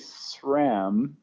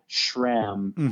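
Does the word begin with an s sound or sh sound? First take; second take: s sound; sh sound. First: The word begins with a plain s sound. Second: The word begins with an sh sound. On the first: "I always say SRAM" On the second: "You kind of add like this S H sound, like sh, like SRAM"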